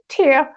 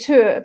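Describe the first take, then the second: First: The name is said with a non-Danish pronunciation. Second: The name is said with a Danish pronunciation. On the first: "mainly people will call it Tyr" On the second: "that's the Danish pronunciation"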